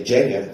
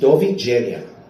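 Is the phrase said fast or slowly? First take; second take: fast; slowly. First: The phrase is said quickly, run together. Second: The phrase is said slowly and clearly.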